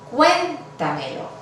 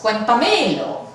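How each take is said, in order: First: The stress is on the first syllable. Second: The stress is on the third syllable. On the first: The speaker calls it right. "decimos cuéntamelo. La sílaba tónica es la primera" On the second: The speaker calls it wrong. "No decimos cuéntamelo"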